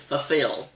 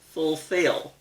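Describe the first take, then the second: First: The word is said fast, syllables run together. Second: The word is said slowly, each syllable fully. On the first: The speaker calls it wrong. "they're saying fulfill" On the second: The speaker calls it right. "It should be fulfill"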